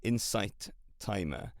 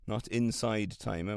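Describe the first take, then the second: First: "Insight" slowly, ending in a crisp T; the correct "Insight", second syllable like "sight"; corrected name Insight. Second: "Inside" ending in a voiced D; the mistaken "Inside", second syllable like "side"; mistaken name Inside. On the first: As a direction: say "Insight" with a clear T, unhurried. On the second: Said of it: "which I thought it was in". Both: Shown as a demonstration.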